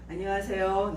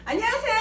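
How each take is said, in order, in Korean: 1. 인사말의 톤이 내려가요. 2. 인사말의 톤이 올라가요. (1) "내리고" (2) "톤을 올린다라고 하면 안녕하세요 이렇게 올리는 거잖아요"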